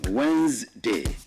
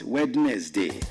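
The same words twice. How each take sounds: First: It sounds like two syllables, wenz-day. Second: It sounds like three syllables, wed-nes-day. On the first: The speaker calls it right. "like you want to spell W E Z, then day. That's the proper pronunciation" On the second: The speaker calls it wrong. "not Wednesday"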